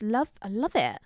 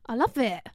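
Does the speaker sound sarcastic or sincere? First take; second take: sarcastic; sincere. First: The tone sounds sarcastic. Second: The tone sounds sincere. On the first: The speaker does not mean it. The speaker calls it wrong. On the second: The speaker means it. The speaker calls it right.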